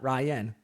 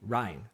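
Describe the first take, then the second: First: The name is said as two syllables, Ry-an. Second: The name is said as one syllable, like rind. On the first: The speaker calls it wrong. "Not Ryan" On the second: The speaker calls it right. "R Y N E. Ryan"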